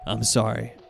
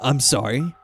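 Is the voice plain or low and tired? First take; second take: low and tired; plain. First: It is said in a low, tired voice. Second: It is said in a plain, normal voice.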